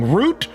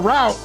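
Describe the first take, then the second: First: It sounds the same as the plant word root. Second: It sounds different from the plant word root. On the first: The speaker calls it wrong. "A root is a thing that's from a tree" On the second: The speaker calls it right. "You talking about roots on a plant, dude? It's a route"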